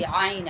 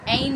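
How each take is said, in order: First: The first sound is squeezed from deep in the throat. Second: The first sound is a plain glottal catch. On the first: The speaker calls it right. "ये आइन की आवाज़ जो है वो आपके हलक से निकलेगी।" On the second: The speaker calls it wrong. "ऐन नहीं कहेंगे, हमजा जैसे कहते हैं ना, ऐसे नहीं कहेंगे।"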